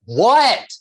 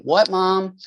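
First: Loud, high-pitched shout imitating a teenage boy; mock teen bellow, much too loud; brusque teen yell. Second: Put-on high-pitched, innocent teen answer at normal volume; imitated harmless "yes, Mom?" tone; innocent reply. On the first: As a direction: shout back like an oblivious teenager. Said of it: "the delivery was so off". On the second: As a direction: answer mom as if nothing is wrong. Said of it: "thought he was just, you know, probably saying".

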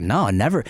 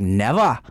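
First: Said in the usual way. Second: "Never" as a mock Aussie "nevah"; imitated Australian accent. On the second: Promoter reassuring a comedian, put-on Australian accent. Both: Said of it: "That's a weird accent you're doing".

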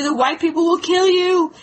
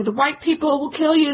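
First: A bit higher, pressing harder on kill; mock panicked husband repeating himself; a touch of alarm; frightened insisting. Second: Said in the usual way. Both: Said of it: "her husband freaked out".

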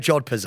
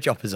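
First: "jodhpurs" pronounced with a D before the P; jodhpurs, D sounded. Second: "joppers" with no D, just a P; joppers, silent D. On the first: Telling co-host what Pete will wear, "jodhpurs" with D. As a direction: keep the D in "jodhpurs". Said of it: "No, it's jodhpurs". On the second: Conceding to the co-host's way, "joppers" with silent D. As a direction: give in and say "joppers", D dropped. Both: Shown as a demonstration.

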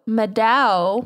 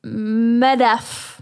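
First: Meadow said like the word meadow, MED-oh; wrong pronunciation. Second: Medoff said MED-off, ending in off; corrected pronunciation. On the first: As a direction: Meadow pronounced MED-oh, rhyming with ledo. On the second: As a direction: Medoff with a clear final f, MED-off. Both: Shown as a demonstration.

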